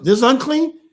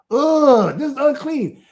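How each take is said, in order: First: Louder, higher, rising on unclean; surprised question. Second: High, loud ugh, then falling; mock a child's disgusted verdict; imitated disgust. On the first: Real, not acted. Father checks his child's answer aloud, surprised question. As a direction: ask it in raised-voice surprise. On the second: Father imitates children rejecting unclean food, mock disgust. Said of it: "That's what they're saying".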